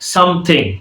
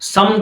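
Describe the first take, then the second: First: The word is said fully, with every syllable. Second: The word is shortened, ending in an n sound.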